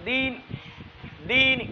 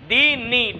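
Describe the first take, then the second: First: The final vowel is only faintly voiced. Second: The final vowel is fully pronounced. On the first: The speaker calls it right. "রুম করলাম" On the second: The speaker calls it wrong. "Direct করলে এটা তো ওয়াকফা হবে না"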